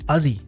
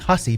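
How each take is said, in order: First: It begins with a vowel and has a Z sound. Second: It begins with H and has an S sound. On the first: This is how relatives in Newfoundland say it. "they don't pronounce H's, and those S's are usually pronounced as Z's" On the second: This is the standard family name. "so it is Hussey"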